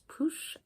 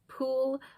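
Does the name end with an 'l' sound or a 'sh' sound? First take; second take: sh sound; l sound. First: The name ends with a 'sh'-like sound. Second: The name ends with a plain 'l' sound. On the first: The speaker calls it right. "the actual pronunciation is Poosh" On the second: The speaker calls it wrong. "I have in the past called him Pool"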